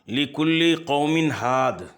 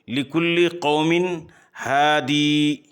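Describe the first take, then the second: First: The last word ends on a d sound. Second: The last word ends with a long ee.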